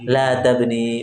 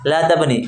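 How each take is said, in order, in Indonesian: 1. Vokal akhir dari tabni panjang. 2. Vokal akhir dari tabni pendek. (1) "Kalau la nafiyah tidak hilang ya-nya" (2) "La nahiyah hilang ya-nya"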